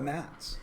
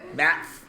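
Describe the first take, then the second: First: The final s sound is said clearly. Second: The final s sound is said with a lisp.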